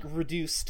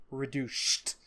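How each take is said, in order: First: Said in the usual way. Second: "Reduced" with a spitting lisp, like "reduchhed"; Sylvester-style reduced. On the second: Shown as a demonstration. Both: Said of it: "reduced in his voice is spelled R E D U C H E D".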